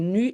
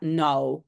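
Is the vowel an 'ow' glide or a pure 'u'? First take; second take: pure u; ow glide. First: The vowel is a pure, rounded 'u' sound. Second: The vowel glides like 'ow'. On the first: This is the usual form in Belgium. "en Belgique, c'est plutôt nu" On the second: This is not the usual form in Belgium. "et pas now"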